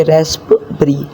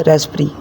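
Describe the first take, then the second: First: रास्पबेरी with the p sounded, the wrong way; रास्पबेरी with a clear p, the incorrect way. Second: रास्पबेरी with the p silent, like rasberry; रास्पबेरी said as rasberry, the correct way. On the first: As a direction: say रास्पबेरी with the p spoken, as the mistake. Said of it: "ना कि रास्पबेरी". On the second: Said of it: "ये बनेगा रास्पबेरी". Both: Shown as a demonstration.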